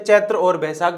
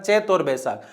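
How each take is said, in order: First: The first word ends with a full 'tra' sound. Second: The first word is shortened to two syllables. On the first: This is the pure, correct form. The speaker calls it right. "सही शुद्ध रूप से" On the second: This is the common everyday form. The speaker calls it wrong. "ऐसे बोला जाता है"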